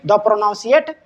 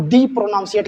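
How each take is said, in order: First: द with a short neutral vowel; THE as "duh". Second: दी with a long ee vowel; THE as "dee". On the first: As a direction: say द as "duh", no ee sound. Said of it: "द प्रोनाउंसिएट नहीं करेंगे". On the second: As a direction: say दी to rhyme with see. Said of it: "हम दी प्रोनाउंसिएट करेंगे". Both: Shown as a demonstration.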